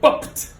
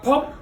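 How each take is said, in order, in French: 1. Le mot se termine par un son t clairement relâché. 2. Le mot se termine sans son t audible. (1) "le t, t doit sortir" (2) "c'est pas pop"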